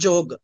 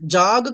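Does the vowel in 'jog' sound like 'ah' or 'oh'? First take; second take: oh; ah. First: The vowel sounds like a rounded 'oh'. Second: The vowel sounds like an open 'ah'. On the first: The speaker calls it right. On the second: The speaker calls it wrong. "జాగ్ కాదండి"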